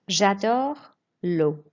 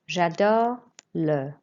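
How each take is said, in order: First: The last word ends in a clear 'o' sound. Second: The last word ends in an 'uh' sound. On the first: The speaker calls it right. "read a sentence correctly first" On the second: The speaker calls it wrong. "It's not le"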